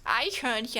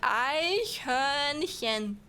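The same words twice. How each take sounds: First: The word is said at normal speed. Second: The word is said slowly.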